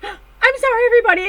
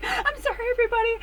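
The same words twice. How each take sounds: First: High, loud giddy apology; mock-shrieked sorry; excited apology. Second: High, softer giddy apology; lightly voiced sheepish sorry. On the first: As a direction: apologize to the room while bursting. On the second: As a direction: apologize sweetly, still giddy. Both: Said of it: "She's like".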